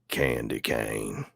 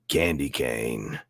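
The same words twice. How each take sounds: First: It is said in a country accent. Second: It is said in a plain accent.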